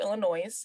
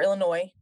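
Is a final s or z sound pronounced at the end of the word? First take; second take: Yes; No. First: The word ends with an audible s or z sound. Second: The word ends on a vowel with no s sound. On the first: The speaker calls it wrong. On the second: The speaker calls it right.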